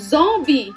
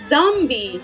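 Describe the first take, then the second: First: The word is pronounced with French sounds. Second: The word is pronounced with English sounds.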